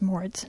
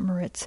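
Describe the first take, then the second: First: The name is not pronounced like the resort. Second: The name is pronounced like the resort. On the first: This is the speaker's actual surname. The speaker calls it right. "my surname is not pronounced like the resort" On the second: This is the resort's name, not the surname. The speaker calls it wrong. "not Moritz"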